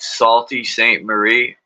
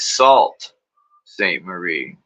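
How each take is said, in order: First: The first word is said with two syllables. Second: The first word is said with one syllable. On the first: The speaker calls it wrong. "That don't sound good" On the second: The speaker calls it right. "Oh, it's"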